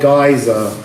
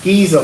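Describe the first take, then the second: First: The word does not sound like 'geezer'. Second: The word sounds like the British slang 'geezer'. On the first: "depending on how you say it" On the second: "I say Giza because it's like bloke in British"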